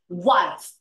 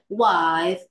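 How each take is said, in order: First: The word is said briefly and strongly. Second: The word is drawn out and held long. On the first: The speaker calls it right. "Just try to pronounce it briefly and strongly" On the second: The speaker calls it wrong. "Don't say wife"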